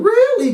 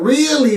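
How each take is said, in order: First: "Really?" pitched high in mock shock; a bright, high, stunned "Really?". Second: A doubtful, sceptical "Really?"; suspicious really. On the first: Guessing Bayley's reaction to Tyler, mock shocked "Really?". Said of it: "'cause she's shocked". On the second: Retold or imitated. Guessing Bayley's reaction to Tyler, wary "Really?".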